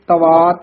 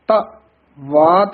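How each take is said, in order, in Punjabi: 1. ਇਹ ਸ਼ਬਦ ਜੁੜ ਕੇ ਇੱਕ ਸ਼ਬਦ ਵਾਂਗ ਬੋਲੇ ਜਾਂਦੇ ਨੇ। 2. ਇਹ ਸ਼ਬਦ ਦੋ ਵੱਖਰੇ ਸ਼ਬਦਾਂ ਵਾਂਗ ਬੋਲੇ ਜਾਂਦੇ ਨੇ।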